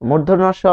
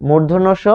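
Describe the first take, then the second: No difference in how they are said.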